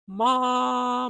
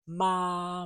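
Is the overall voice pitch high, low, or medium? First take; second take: high; medium. First: The voice is at a high pitch. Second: The voice is at a medium pitch. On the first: "At a higher register is the same pattern" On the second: "So that is my normal voice"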